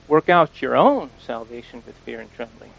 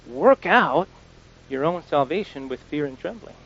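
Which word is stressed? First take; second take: own; work. First: The emphasis falls on the word own. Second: The emphasis falls on the words work out. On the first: Focus on your own salvation, not another's. "don't try to figure out someone else's salvation" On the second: The task is to figure it out yourself. "we need to figure this out. We need to work this out"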